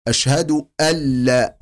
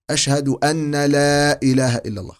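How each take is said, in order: First: أشهد أن لا with the nun vanishing into the lam, no nasal hum; full idgham. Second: أشهد أن لا with the nun stressed and doubled أنّا; mock wrong recitation. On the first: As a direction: merge أن cleanly into لا. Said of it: "إدغام كامل". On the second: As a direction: show the mistaken shadda on the nun. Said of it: "خطأ". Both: Shown as a demonstration.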